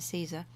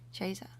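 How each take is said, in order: First: It is said the familiar English way. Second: It is said the ecclesiastical Latin way. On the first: "We're used to Caesar" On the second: "if we're doing ecclesiastical like Latin"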